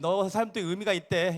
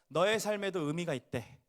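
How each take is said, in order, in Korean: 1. 갑자기, 아무렇게나 말해요. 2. 따뜻하게, 축복하듯 말해요. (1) "갑자기 막 아, ... 이렇게 하시면 안 됩니다" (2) "옆에 이렇게 축복해 볼까요?"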